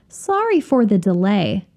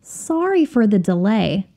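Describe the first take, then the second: No difference in how they are said.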